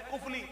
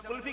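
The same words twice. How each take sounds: First: کفلی said kufli, f before l; کفلی the old kufli; کفلی voiced kufli; original pronunciation. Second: کلفی said kulfi, l before f; کلفی the everyday kulfi; کلفی voiced kulfi; common pronunciation. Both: Shown as a demonstration. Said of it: "جسے ہم کلفی کہتے ہیں".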